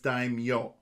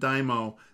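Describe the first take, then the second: First: The 'm' is followed by a 'y' sound. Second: The 'm' is followed directly by the vowel. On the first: The speaker calls it right. "There's a Y in there" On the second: The speaker calls it wrong. "that's not daimyo"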